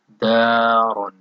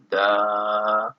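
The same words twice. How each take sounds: First: Said in the usual way. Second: Long drawn daa, pause, then run; dar slowly broken up. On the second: Shown as a demonstration. Teacher showing final detached ra in dar, slowly broken up. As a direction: split dar to set the final ra apart. Example word repeated, broken up.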